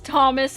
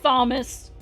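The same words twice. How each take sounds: First: The name begins with a plain T sound. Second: The name begins with a TH sound. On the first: The speaker calls it right. "I know it's Thomas" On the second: The speaker calls it wrong. "and not Thomas"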